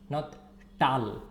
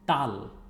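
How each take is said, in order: First: The T sound is strong and hard. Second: The T sound is soft and light. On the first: The speaker calls it wrong. "it's not the strong T" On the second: The speaker calls it right. "it's soft"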